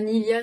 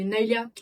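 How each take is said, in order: First: The first syllable has an 'ee' vowel. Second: The first syllable has an English-style 'ay' vowel. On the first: The speaker calls it wrong. "Nilia, c'est chiant un peu, c'est un peu bébé" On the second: The speaker calls it right. "Ça se dit Nailia ... il fallait une référence à l'anglais"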